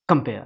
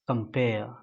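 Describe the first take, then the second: First: The first vowel is said quickly and clipped. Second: The first vowel is held a bit longer. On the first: The speaker calls it wrong. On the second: The speaker calls it right.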